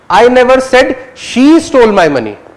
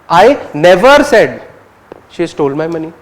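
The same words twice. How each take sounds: First: The word "she" carries the main stress. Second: The word "never" carries the main stress. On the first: "you're focusing on whether she or he" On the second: "you're focusing on never"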